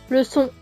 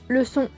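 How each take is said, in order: The two takes are said the same way.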